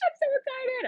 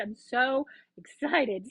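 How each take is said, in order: First: High and bright with joy; excited. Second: Slower, settled back down; calmer repeat. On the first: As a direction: burst out excited. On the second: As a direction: say it again, savouring it. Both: Real, not acted.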